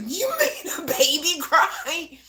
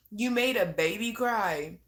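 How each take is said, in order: First: High, loud, slow through laughter; laughing tease. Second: Said in the usual way. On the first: Real, not acted. Teasing Alexis over the crying baby, laughing loudly. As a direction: cackle it out at her.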